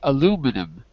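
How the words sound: It is said with an American pronunciation. "I'm an American, so I say aluminum"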